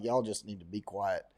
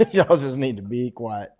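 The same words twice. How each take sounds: First: Muttered retort. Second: Repeated aloud with a laugh; laughing retort. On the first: Muttering to Australians about guns, hushed. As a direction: say it under your breath, dismissive. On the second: Teasing Australians about guns, laughing. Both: Retold or imitated. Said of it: "I'm like".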